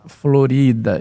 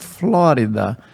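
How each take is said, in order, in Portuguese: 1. O nome é dito do jeito espanhol. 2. O nome é dito do jeito americano. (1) "ninguém vai pronunciar Florida" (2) "os americanos passaram a designar o território que eles compraram da Espanha por Flórida"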